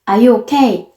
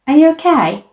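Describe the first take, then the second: First: It is said flatly, with little pitch movement. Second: It is said with lively, varied native-like intonation. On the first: The speaker calls it wrong. "한국식으로 쪼금 덤덤하게" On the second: The speaker calls it right. "원어민은 이렇게 ... 말하는구나. 그래서 그대로 따라 했어요"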